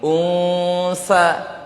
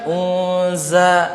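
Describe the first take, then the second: First: The middle consonant is a voiceless s sound. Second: The middle consonant is a voiced z sound. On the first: The speaker calls it right. "kan ini unsa" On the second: The speaker calls it wrong. "Dia bilang unza"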